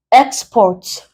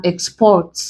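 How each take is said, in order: First: "export" with EX punched first; stress on EX. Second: "export" with the weight on PORT; stress on PORT. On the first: Giving an example of export as a noun, stress on EX. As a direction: hit the first syllable of "export". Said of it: "export as a noun". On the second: Giving export as a verb example, stress on PORT. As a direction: lean on the second syllable of "export". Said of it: "As a verb". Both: Shown as a demonstration.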